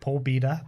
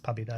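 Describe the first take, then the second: First: The first vowel sounds like 'oh'. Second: The first vowel sounds like 'ah'. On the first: The speaker calls it wrong. "going to kill me for pronouncing it Pobeda" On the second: The speaker calls it right. "but it's Pabida apparently"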